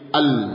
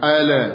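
First: The l is held with the tongue pressed up. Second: The l is released with a bounce. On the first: The speaker calls it right. "tapi al. Lidah ditempelkan ke atas" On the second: The speaker calls it wrong. "Lamnya tidak dipantulkan, jangan al"

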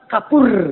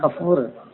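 First: The middle consonant is a p sound. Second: The middle consonant is an f sound. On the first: The speaker calls it wrong. "Kalau orang Sunda kan kapur" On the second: The speaker calls it right. "pakai fa, bukan pakai kapur, pakai pe"

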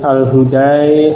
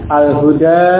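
First: The final long vowel is tilted toward i. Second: The final long vowel is a plain open a. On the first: "Fathah sebelum alif tetap dibaca fathah dengan ha, sementara alifnya imalah itu keliru" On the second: "ini yang dibaca fathah dulu ya"

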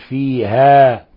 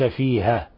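First: The final vowel is held long. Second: The final vowel is cut short. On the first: The speaker calls it right. "لابد أن نقول فيها" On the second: The speaker calls it wrong. "وليس فيها"

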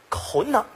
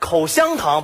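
First: The middle syllable is swallowed into one sound. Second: All three syllables are pronounced clearly.

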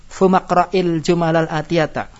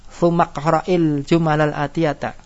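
No difference in how they are said.

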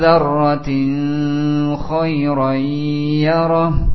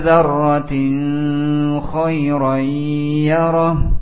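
First: The n is hidden with a nasal sound. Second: The same.

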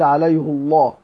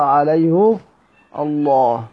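First: The ha has i and the L is light. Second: The ha has u and the L is heavy. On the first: "لكسر الهاء في قراءة غير حفص" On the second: "سيدنا حفص بيقرأ عليه الله"

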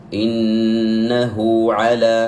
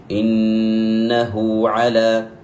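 Both takes have the same delivery.

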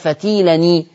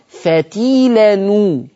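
First: The linking vowel after the n is i. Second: The linking vowel after the n is u. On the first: The speaker calls it wrong. "ما تقولش بقى فتيلني" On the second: The speaker calls it right. "ضم التنوين فتقول فتيلنو"

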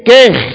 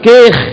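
No difference in how they are said.

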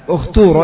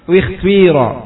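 First: The vowels are pronounced as a rounded u sound. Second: The first vowel blends a rounded u with i. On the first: "Jadi kalau antum baca ukhturo ya di dhammah karena ta-nya di sini dhammah" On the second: "atau ismam berarti dua-duanya di ismam. Gimana cara bacanya?"

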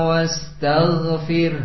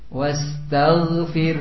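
The two takes are said the same way.

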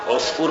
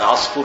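First: The first vowel is an 'u' sound. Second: The first vowel is an 'a' sound. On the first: This is the more common form. "بضم العين هو الأشهر" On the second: This is the form Egyptians use. "تفتح العين عصفور صح التي ينطقها المصريون"

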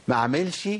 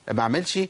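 No difference in how they are said.

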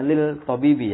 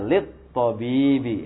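First: The l sound is pronounced before the t. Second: The l merges into a doubled t sound. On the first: The speaker calls it wrong. "Kalau salah tadi bacanya lil tabibi" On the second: The speaker calls it right. "Langsung saja lil tabibi ya. Jadi langsung dia idgham ke huruf to"

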